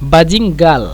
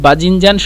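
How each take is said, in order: First: The word ends with an l sound. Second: The word ends with an n sound.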